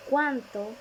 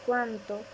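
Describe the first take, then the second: First: Cuánto with a strongly stressed first syllable; accented cuánto. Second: Said in the usual way. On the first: Shown as a demonstration. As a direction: hit the CUÁN of cuánto, then fall. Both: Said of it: "tilde para distinguirlas".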